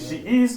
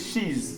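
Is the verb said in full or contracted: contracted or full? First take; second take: full; contracted. First: Two separate words, the verb said in full. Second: One word, the verb's vowel dropped. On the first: "full form of to be" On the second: "the short form of to be"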